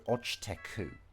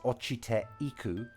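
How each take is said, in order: First: The vowel e is dropped, merging into teku. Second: The vowel e is fully pronounced before iku. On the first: "he's just omitted the e" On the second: "So this is ochite iku"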